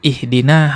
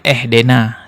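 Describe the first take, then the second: First: The vowels are pronounced as clear i sounds. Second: The vowels are pronounced as e sounds. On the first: The speaker calls it right. "Ihdina harusnya kan begitu" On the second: The speaker calls it wrong. "tapi dia baca ehdena"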